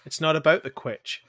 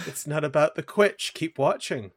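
First: Light imitation of "It's not about the quitch", quitch said as kwitch; a playful quote of a comedy line, quitch rhyming with itch; quoting Ryan George. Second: Light imitation of "It's not about the quitch", quitch said as kwitch, ending on a rise; playful repeat of the comedy line with a rising end; quoting Ryan George. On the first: Friend quotes a Ryan George sketch line, mock-serious. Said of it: "That sounds like a Ryan George thing". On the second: Friend repeats the Ryan George line, playfully. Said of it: "It is a Ryan George thing".

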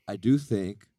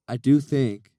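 First: Said in the usual way. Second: "do" hit louder and higher; stress on do. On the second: Shown as a demonstration. Host declaring his big opinion on the pod, punching "do". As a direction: lean hard on "do" in "I do think". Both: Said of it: "let me say this".

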